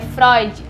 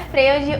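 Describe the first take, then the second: First: The name is pronounced differently from its spelling. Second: The name is pronounced just as it is spelled. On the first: The speaker calls it right. "se escreve Freud, mas o nome dele se diz, se pronuncia Freud" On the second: The speaker calls it wrong. "não é Freud o nome dele"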